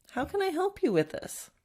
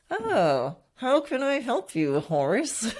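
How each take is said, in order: First: Gentle, patient question; said nicely. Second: Forced helpfulness through gritted teeth; through clenched teeth. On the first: Shown as a demonstration. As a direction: ask kindly, wanting to help. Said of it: "say it nicely". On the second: Retold or imitated. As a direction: grit teeth, fake the kindness. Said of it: "saying those words through clenched teeth".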